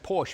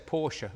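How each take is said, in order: First: It uses the customary local pronunciation. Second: It uses the officially preferred pronunciation. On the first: This is how people said the name for decades. "When we said Porsche for decades" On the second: This is how the name is now supposed to be said. "Now we're supposed to say Porsche"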